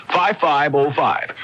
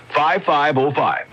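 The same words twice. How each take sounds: The two takes are said the same way.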